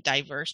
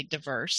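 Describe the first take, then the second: First: "diverse" as DIE-verse; "diverse" with long I. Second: "diverse" as dih-VERSE; "diverse" with short vowel. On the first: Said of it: "I just said diverse". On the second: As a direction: reduce the first syllable of "diverse". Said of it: "other people would say". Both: Shown as a demonstration.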